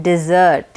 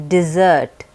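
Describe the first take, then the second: The two takes are said the same way.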